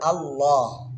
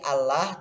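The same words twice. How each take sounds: First: The L is heavy and thick. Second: The L is light and thin. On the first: "tapi tebal Allah" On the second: "Aslinya itu kayak pengucapan teman apa? Umat Nasrani Allah"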